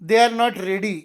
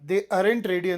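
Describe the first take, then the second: First: 'Are not' is said in full as two words. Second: 'Are not' is contracted into one short word.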